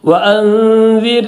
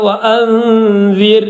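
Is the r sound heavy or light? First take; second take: light; light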